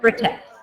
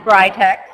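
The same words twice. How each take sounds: First: The name is pronounced the European way. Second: The name is pronounced the American way. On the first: This is how people in Europe say it. "although in Europe, they pronounce it as Britex" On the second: This is the official pronunciation in the United States. "here in the United States, we do pronounce it as Britex"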